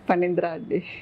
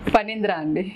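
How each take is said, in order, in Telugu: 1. సాధారణ స్వరంతో మెల్లగా చెప్పాలి. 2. బేస్ స్వరంతో గట్టిగా చెప్పాలి.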